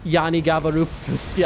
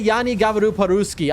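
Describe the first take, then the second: First: "Yani gavaru po-ruski" retold casually, rising at the end; "Yani gavaru po-ruski" quoted in the story, lightly; Russian phrase. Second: "Yani gavaru po-ruski" said carefully in Russian, stress on gavaru; "Yani gavaru po-ruski" as a learner demonstrates it; Russian phrase. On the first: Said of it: "I hit 'em with the". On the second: Shown as a demonstration. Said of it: "So I know how to say".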